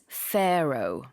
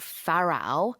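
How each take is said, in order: First: The first vowel has the English 'fair' sound. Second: The first vowel sounds like the Korean 'pa'. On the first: The speaker calls it right. "but it's pharaoh" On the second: The speaker calls it wrong. "it's not pharaoh"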